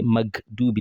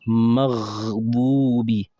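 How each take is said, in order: First: The consonant is a hard stop g. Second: The consonant is a throaty gh from the throat. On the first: The speaker calls it wrong. "many people will just say magdubi ... it's a wrong pronunciation" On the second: The speaker calls it right. "let's pronounce it with sukun properly"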